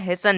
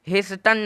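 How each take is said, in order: First: No t sound is heard after the s. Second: A t sound is heard after the s. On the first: The speaker calls it right. "निकला है" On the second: The speaker calls it wrong. "नहीं निकला है"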